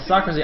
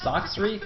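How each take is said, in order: First: The name is said with three syllables. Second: The name is said with two syllables. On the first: The speaker calls it wrong. "I've been pronouncing it wrong as well" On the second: The speaker calls it right. "it's Soxry?"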